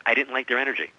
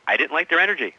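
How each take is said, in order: First: Said in the usual way. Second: Repeated louder and higher for emphasis. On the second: Retold or imitated. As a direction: say it again so she hears, higher and louder.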